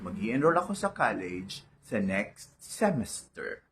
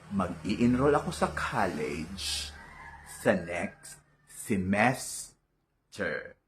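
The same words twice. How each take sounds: First: Semester is not stressed on the second syllable. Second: Semester is stressed on the second syllable. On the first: The speaker calls it wrong. "Mali po yan" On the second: The speaker calls it right. "ito na ang ating dapat sabihin"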